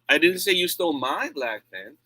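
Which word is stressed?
my. The stress falls on the word my. Someone else's pen was taken.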